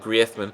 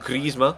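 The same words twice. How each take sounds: First: The name is pronounced with Spanish sounds. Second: The name is pronounced with French sounds. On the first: This is how the player wants his name said. "to pronounce it the Spanish way" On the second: This is how the name is said in France. "in France they call him Griezmann"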